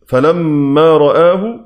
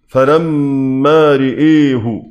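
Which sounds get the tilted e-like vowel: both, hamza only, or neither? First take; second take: Neither; Both. First: Both the ra and hamza keep an open a. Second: Both the ra and hamza vowels tilt toward e. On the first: "الفتح فيهما" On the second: "إمالة الهمزة والراء"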